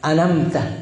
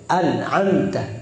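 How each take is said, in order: First: The middle throat consonant is dropped. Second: The middle throat consonant is clearly pronounced. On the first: The speaker calls it wrong. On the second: The speaker calls it right. "Yang penting tepat"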